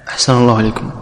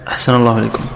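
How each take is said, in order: No difference in how they are said.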